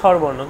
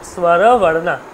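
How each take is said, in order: First: The word ends on a consonant with no vowel. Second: The word ends with a final 'o' vowel. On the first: The speaker calls it wrong. "আমরা বলছি স্বরবর্ণ কিন্তু নয়" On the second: The speaker calls it right. "বলতে হবে স্বরবর্ণা... দেখুন স্বরের সাথে অ আছে"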